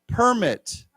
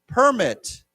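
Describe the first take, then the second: First: It is said with the noun pronunciation. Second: The same.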